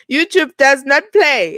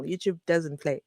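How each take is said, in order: First: Louder, slower, every word spelled out; emphatic, with a laugh. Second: Said in the usual way. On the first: Real, not acted. Warning viewers about YouTube rules, loud, slow and emphatic. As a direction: land "does not" hard, half laughing.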